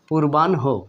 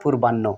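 First: The ending has an n followed by h. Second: The ending has a doubled n and no h. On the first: The speaker calls it right. "সঠিকভাবে যদি আমরা করি তাহলে এটা হতে পারে" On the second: The speaker calls it wrong. "আমরা ভুলভাবে উচ্চারণ করি অনেক সময়"

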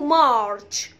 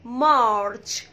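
The two takes are said the same way.

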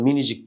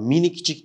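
First: The k before the ending is dropped. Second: The k before the ending is pronounced. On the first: The speaker calls it right. "Burada K'yi yedi" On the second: The speaker calls it wrong. "minikcik demiyoruz"

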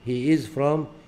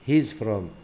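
First: The verb is said as a separate full word. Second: The verb is contracted onto the pronoun.

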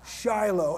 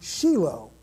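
First: It has an American English pronunciation. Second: It has a Hebrew pronunciation. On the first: "We say in America, we say Shiloh" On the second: "in Hebrew, you pronounce the word Shiloh"

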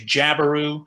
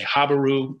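First: The name begins with a J sound. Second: The name begins with an H sound. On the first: "Some people say jabaru, which I think is fine" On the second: "That's just kind of how I pronounce it"

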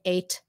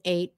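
First: The final T is clearly released. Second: The final T is stopped, not released. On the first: The speaker calls it wrong. "We don't say" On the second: The speaker calls it right. "It's a stopped T"

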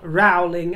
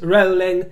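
First: The name rhymes with growling. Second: The name does not rhyme with growling. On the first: The speaker calls it wrong. "it is not Rowling, as in growling" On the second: The speaker calls it right. "it is Rowling"

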